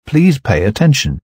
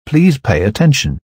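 No difference in how they are said.

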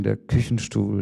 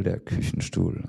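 First: Said in the usual way. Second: Whispered echo. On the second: Acted. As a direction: repeat it as a soft, whispered echo. Repeated line in poem.

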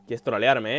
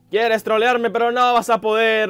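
First: Low-pitched, held-back challenge; restrained, lower voice; low taunt. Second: Louder, higher taunt; worked-up, loud defiance; defiant outburst. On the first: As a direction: mutter it low at the troll. First take of taunt to enemy. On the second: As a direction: challenge the enemy with raised voice. Taunt escalates at the enemy. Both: Real, not acted.

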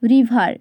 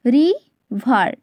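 First: Said in the usual way. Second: "রিভার" broken slowly into two parts, রি and ভার; slow two-beat "রি... ভার"; split into syllables. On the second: Shown as a demonstration. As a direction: say "রিভার" syllable by syllable with a clear gap. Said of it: "দুবারে উচ্চারিত হচ্ছে".

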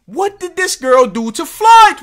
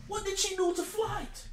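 First: Loud, high-pitched demand; mock outrage. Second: Very soft, high-pitched plea; hushed mock concern. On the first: Reactor demanding answers on the girl's offence, loud mock outrage. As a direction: burst out as if scandalised. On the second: Reactor puzzling over Flight's grudge, hushed mock concern. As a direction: ask it in baffled, tiny-voiced concern.

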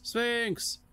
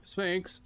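First: Very high, pleading cry; desperate shout. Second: High call after someone leaving. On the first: Second, more desperate call. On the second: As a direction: call his name, rising in alarm. Hero calls after the Sphinx. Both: Acted.

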